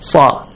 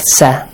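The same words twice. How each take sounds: First: The letter is said heavy, with a full, open mouth. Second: The letter is said light, with a thin vowel. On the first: The speaker calls it right. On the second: The speaker calls it wrong.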